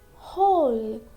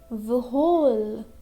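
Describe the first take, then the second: First: No W sound is pronounced at the start. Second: A W sound is pronounced at the start. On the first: The speaker calls it right. "We'll pronounce whole. This W is silent" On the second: The speaker calls it wrong. "we can't pronounce whole. Okay, that will be wrong"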